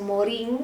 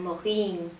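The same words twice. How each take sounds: First: The name is said with a Spanish pronunciation. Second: The name is said with a French pronunciation. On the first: The speaker calls it wrong. "no se pronuncia Morin" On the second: The speaker calls it right. "es francés, sino que es como un Morin"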